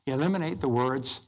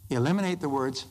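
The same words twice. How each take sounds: The two takes are said the same way.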